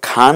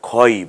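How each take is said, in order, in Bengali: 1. স্বরধ্বনিটি পরিষ্কার, খোলা 'a'। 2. স্বরধ্বনিটি ভারী, গোলাকার 'o'। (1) "খা না বলে" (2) "আমরা খই বলবো"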